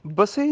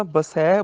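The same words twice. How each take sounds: First: ਬਸੇ with narrow e; wrong ending. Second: ਬਸੈ with open ai; correct ending. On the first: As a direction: end ਬਸੇ on a closed e. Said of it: "ਬਸੇ ਨਹੀਂ ਬੋਲਣਾ". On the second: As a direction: widen and hold ai in ਬਸੈ. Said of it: "ਬਸੈ ਬੋਲਣਾ ਇੱਥੇ". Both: Shown as a demonstration.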